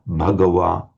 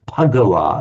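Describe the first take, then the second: First: It begins with a breathy voiced B sound. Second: It begins with a voiceless P sound. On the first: "you'd have a distinct voiced B, but aspirated" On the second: "if you're a Thai, it comes out as Pagawa, as if it's a P"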